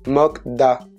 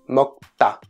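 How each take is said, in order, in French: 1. La consonne après mok est un d doux. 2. La consonne après mok est un t dur. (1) "qu'on lit souvent écrit mokda" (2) "Bah en fait ça se prononce mokta"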